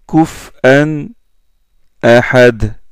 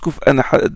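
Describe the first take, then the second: First: A short pause separates the two words. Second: The two words run together without a pause. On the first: "il marque une pause" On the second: "comme, les- comme, comme Yaqub et Khalaf"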